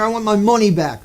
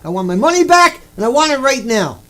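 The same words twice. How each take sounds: First: Said in the usual way. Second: Loud demand. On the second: Pretend. Man demanding refund from lecturer, loud insistent demand. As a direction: raise your voice and demand the money. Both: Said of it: "demanding refund at a lecture".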